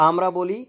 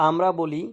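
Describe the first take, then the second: Both takes have the same delivery.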